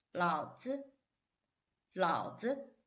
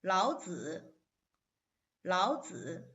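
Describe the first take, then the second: First: 老子 with 子 short and toneless; neutral tone. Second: 老子 with 子 drawn out in its full tone; original full tone. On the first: Teacher testing the difference, 老子 with neutral tone. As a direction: clip the second syllable of 老子, unstressed. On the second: Teacher testing the difference, 老子 in full tones. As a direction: give both syllables of 老子 full weight. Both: Shown as a demonstration. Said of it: "see if you can tell the difference".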